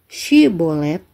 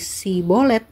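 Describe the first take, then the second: First: The word begins with a sh sound. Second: The word begins with a plain s sound. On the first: This is how the Gileadites said it. "Shibolet yang diucapkan orang Gilead" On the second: This is how the Ephraimites said it. "oleh orang Efraim diucapkan menjadi Sibolet"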